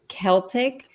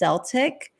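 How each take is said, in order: First: The word begins with a hard K sound. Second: The word begins with a soft S sound. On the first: This is the way English has gone back to. "closer to like the Greek origins" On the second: This is the older way the word was said. "which was like an S"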